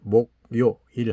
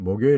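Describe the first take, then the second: First: Each syllable is said separately, one by one. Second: The syllables run together in one smooth flow. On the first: "하나하나 발음하면" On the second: "연거푸 발음할 때는"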